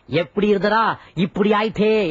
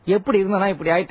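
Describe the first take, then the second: First: It is said with exaggerated, radio-ad emotion. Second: It is said plainly, with toned-down emotion.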